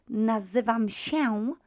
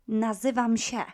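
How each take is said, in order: First: "nazywam się" with się as a full "sheh-oon"; super-correct nasal ending. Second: "nazywam się" with się cut to "sheh"; quick-speech ending. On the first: Teacher showing what is too correct, "nazywam się" with full nasal ę. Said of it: "there would be no time actually to pronounce it super correctly". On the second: Teacher showing quick speech, "nazywam się" ending in plain "sheh". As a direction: drop the nasal tail of się in "nazywam się". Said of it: "um, in quick speech". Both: Shown as a demonstration.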